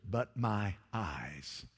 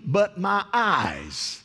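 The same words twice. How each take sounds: First: Softer, lower, slow hush; hushed awe. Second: Higher, louder, drawn-out proclamation; slow preaching cry. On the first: Quiet echo of Isaiah's words. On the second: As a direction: stretch each word out like a revelation. Preaching climax, slow and loud. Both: Acted.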